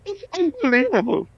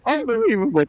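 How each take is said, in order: First: High, far-off mock groan of disbelief; exasperated photographer. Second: Exasperated photographer. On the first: Photographer mocked as fed up with the singer's big head. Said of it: "And he goes, he's holding the camera". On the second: Retold or imitated. Photographer giving up on the singer's giant head, mock disbelief. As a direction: groan it like a beaten photographer. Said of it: "And then".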